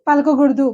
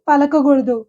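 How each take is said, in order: No difference in how they are said.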